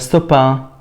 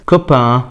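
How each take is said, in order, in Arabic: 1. الحرف الأول هو صوت s. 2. الحرف الأول هو صوت k. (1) "ما ينفعش اقولها ستوبا، خطأ" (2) "زي لما اقول مثلا كلمة كوبا"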